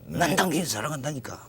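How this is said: It is said angrily, with an irritated tone. "화가 나가지고 하는"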